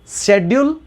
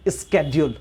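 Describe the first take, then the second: First: The word begins with an 'sh' sound. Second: The word begins with an 'sk' sound. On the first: "दोनों सही है" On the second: "दोनों सही है"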